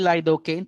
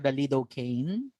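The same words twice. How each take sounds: First: It is said with a Filipino pronunciation. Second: It is said with an American pronunciation. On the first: "when we say lidocaine" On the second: "pag sa States, they pronounce this one as the lidocaine"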